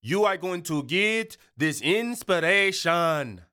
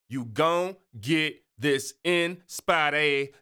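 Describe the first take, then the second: First: Slow, every word of "You are going to get this inspiration" spelt out; proper enunciation. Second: Slow, slurred "You gon' get this inspiration", dropped endings; slangy street drawl. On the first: Host to listeners, corrects himself into careful proper English. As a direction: say it the textbook way, crisp. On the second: Host to listeners, slow slangy "You gon'" drawl. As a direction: lean into the slang, stretch it out. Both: Shown as a demonstration. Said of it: "so I just do the accent".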